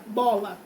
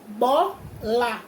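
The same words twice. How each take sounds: First: Said in the usual way. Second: "bola" split slowly into bo, la; syllable by syllable. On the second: Shown as a demonstration. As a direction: say "bola" as two separate, drawn-out beats. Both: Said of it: "Duas sílabas".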